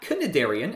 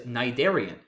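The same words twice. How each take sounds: First: The word begins with an audible k sound. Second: The word begins with an n sound. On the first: The speaker calls it wrong. "it is not cnidarian, as I used to think" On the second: The speaker calls it right. "this C was silent"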